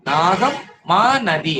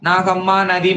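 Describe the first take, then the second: First: The first two words are separated by a break. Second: The first two words run together without a break. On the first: The speaker calls it right. "பிரிச்சு படிக்கணும்" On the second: The speaker calls it wrong. "Nagamma நதி மதியம் அப்படின்னு தப்பா படிச்சிடக்கூடாது"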